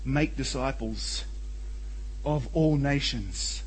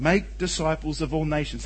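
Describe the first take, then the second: First: Slow, weighty stress on make; slow emphatic reading. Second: Said in the usual way. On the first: Shown as a demonstration. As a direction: lean on make, word by word, slowly. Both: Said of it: "The emphasis is, is very clearly on the making disciples".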